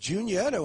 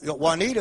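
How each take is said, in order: First: The name begins with a 'joo' sound. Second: The name begins with a 'wah' sound. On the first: This is how locals said the name. "it was Junietta when I grew up" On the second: This is how outsiders read the name. "Juanita is what a lot of people think"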